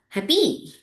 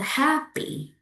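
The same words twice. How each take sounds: First: The stress is on the second syllable. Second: The stress is on the first syllable. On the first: The speaker calls it wrong. "not happy" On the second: The speaker calls it right. "Put the stress on the first letters"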